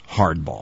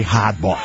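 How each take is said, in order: First: Slow, careful American "hardball" with the r sounded; deliberate General American r on "hardball"; American accent. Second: Boston "hardball" with the r dropped; r-less Boston vowels on "hardball"; Boston accent. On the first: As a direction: say "hardball" in standard American, r pronounced. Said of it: "with an American accent". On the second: The feared Boston slip, r dropped. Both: Retold or imitated.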